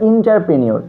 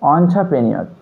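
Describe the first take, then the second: First: The first syllable sounds like 'in'. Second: The first syllable sounds like 'on'. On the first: The speaker calls it wrong. "অনেকেই বলে থাকে এটা ইন্টারপ্রেনিয়র, কিন্তু এটা সঠিক উচ্চারণ নয়" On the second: The speaker calls it right. "সঠিক উচ্চারণ হচ্ছে অন্টারপ্রেনিয়র"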